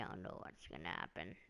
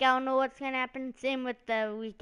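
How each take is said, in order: First: Deadpan mumble. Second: Hyped-up line. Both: Shown as a demonstration. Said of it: "that was kinda dumb".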